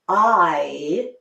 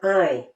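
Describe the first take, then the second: First: It is said with an open, resonant mouth. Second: It is said with a closed, nasal mouth. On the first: "open my mouth more" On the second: "your mouth is more closed and it's more nasal"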